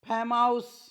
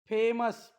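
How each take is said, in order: First: The ending is a long 'ows' sound. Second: The ending is a short 'us' sound. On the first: The speaker calls it wrong. "असं नाही" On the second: The speaker calls it right. "पुन्हा वाचून दाखवतो"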